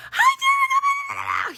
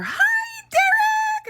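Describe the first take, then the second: First: Very high, loud, slow sing-song hello; overly cheery greeting. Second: Very high, loud sing-song hello; mock a gushing aide at the bus door; overly cheery greeting. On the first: Retold or imitated. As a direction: draw out a gushing hello. Imitating the aide's greeting again. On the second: New aide greets son loudly.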